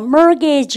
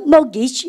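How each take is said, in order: First: American accent, the middle R is pronounced. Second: British accent, the middle R is dropped.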